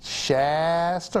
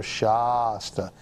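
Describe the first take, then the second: First: Slow, stretched "SHAAASS-ta" for Shasta; Shasta, long flat "a"; Shasta with short a. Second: Slow, stretched "SHAAH-sta" for Shasta; Shasta, first vowel as in "Shaw"; Shasta as "SHAH-sta". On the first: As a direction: draw out Shasta with the a of cat. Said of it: "have a comment, let us know". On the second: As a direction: draw out Shasta with a broad "ah". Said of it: "like Shaw, Shasta". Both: Shown as a demonstration.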